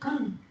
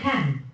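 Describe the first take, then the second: First: The word has a weak, reduced vowel. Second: The word has a full, strong vowel. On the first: The word is part of a sentence. "But in a sentence, just can" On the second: The word stands alone. "In isolation"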